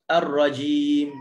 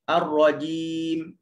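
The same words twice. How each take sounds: First: The jim is released with a puff of air. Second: The jim is released cleanly without extra air. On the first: The speaker calls it wrong. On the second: The speaker calls it right.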